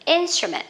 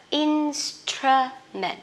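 First: INSTRUMENT whole and quick, high on the first syllable; quick middle vowel. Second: INSTRUMENT slowly in three parts, "ins-truh-ment"; correct instrument. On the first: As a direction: compress the schwa in INSTRUMENT. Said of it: "Âm ơ đọc rất là nhanh". (đọc liền INSTRUMENT, âm ơ lướt nhanh) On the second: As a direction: break INSTRUMENT syllable by syllable. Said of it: "cái này sẽ đọc là". (đọc chậm INSTRUMENT từng âm tiết) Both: Shown as a demonstration.

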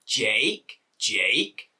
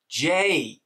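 First: JAKE with a rising, questioning tune; mock-confused JAKE, lifted at the end; puzzled question. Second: JAKE higher and drawn out, falling; exasperated, falling JAKE; incredulous echo. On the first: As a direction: ask JAKE as if unsure you heard right. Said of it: "They're like". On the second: Retold or imitated. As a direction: throw JAKE back in disbelief. Echoes the absurd mishearing.

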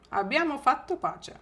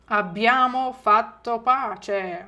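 First: Said in the usual way. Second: Slow, clear, syllable by syllable; slow model phrase. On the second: Shown as a demonstration. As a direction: say it slowly for the class. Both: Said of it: "Ще раз".

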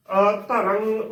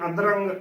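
First: ਅਧਰੰਗ as a-t'rang, first a set apart; correct separated pronunciation. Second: ਅਧਰੰਗ run together as adrang; mistaken joined pronunciation. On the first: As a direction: detach the opening a of ਅਧਰੰਗ, then a t-like sound. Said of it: "ਉਚਾਰਨ ਕਰਨਾ ਹੈ". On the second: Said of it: "ਗਲਤ ਉਚਾਰਨ ਹੋਵੇਗਾ". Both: Shown as a demonstration.

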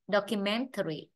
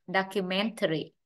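First: "documentary" starting with rounded "dok"; short O. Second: "documentary" starting with open "dahk"; long A. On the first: Teacher drilling both readings, "documentary" with short O. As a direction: say "documentary" with British short o first. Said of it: "vừa phiên âm thành O". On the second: Teacher drilling both readings, "documentary" with ah. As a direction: say "documentary" with an American ah first. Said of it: "vừa phiên âm thành A dài". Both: Shown as a demonstration.

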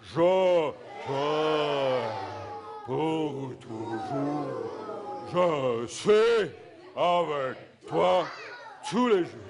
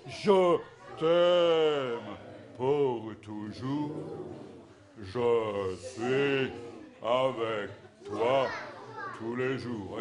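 First: The men boom it out in a big low voice; big deep voice. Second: Deep low rehearsal singalong; a trial run in a lowered voice; mock rehearsal take, men. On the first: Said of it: "très fort, les, avec notre grosse voix". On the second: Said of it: "une fois, euh, pour, euh, du semblant". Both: Shown as a demonstration.

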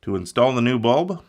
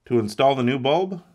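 The two takes are said the same way.

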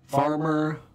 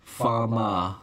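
First: "farmer" with both Rs fully sounded; American-style R in "farmer"; rhotic R. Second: "farma", farmer with no Rs, ending in "ah"; "farma" said as "fah-mah"; non-rhotic R. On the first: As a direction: hit the Rs hard in "farmer". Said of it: "the rhotic R". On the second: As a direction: drop both Rs in "farma". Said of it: "And rhoticity". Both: Shown as a demonstration.

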